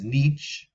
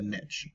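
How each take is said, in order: First: The word uses the European pronunciation. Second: The word uses the American pronunciation. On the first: "the European pronunciation is niche" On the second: "in America, I think we say the niche"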